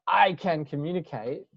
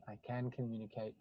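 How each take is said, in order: First: "I can communicate" pushed out louder with a rise, like a pep slogan. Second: Softly, "I can communicate" as a settled truth; quiet inner knowing. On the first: Coach mocks forced self-talk as a loud slogan. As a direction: sell "I can communicate" like fake-it-till-you-make-it. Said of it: "sounds like it's a slogan to tell yourself". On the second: Coach quietly models calm self-knowledge, said softly. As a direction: let "I can communicate" sink in, hushed and sure. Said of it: "not "I can communicate," 'cause it sounds like". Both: Shown as a demonstration.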